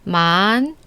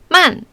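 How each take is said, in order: First: The pitch curves upward from lower to higher. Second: The pitch falls from high to low. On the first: "이성은 아래에서 위로 직선이 아니라 곡선을 타고 올라가는데" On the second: "사성은 높은 데서 아래로 떨어지는데"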